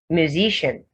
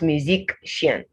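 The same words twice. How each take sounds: First: The middle consonant is a plain sh sound. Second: The middle consonant is a k followed by sh. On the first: The speaker calls it right. "You don't now add the k before saying the sh" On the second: The speaker calls it wrong. "not musician"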